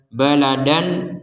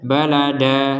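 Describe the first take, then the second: First: The word ends with an n sound. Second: The word ends with a long vowel. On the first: The reading continues into the next word. "Jadi tanwinnya kita baca baladan. Karena digabungkan dengan kata berikutnya" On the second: The reading stops at this word. "Kalau tidak digabungkan, maka baladan dibaca apa? Balada"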